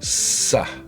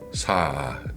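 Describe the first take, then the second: First: The S is tense and more intense. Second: The S is soft and relaxed. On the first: "contractez la langue vers le palais, serré et faire sortir un S plus, plus intense" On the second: "Dites S doucement"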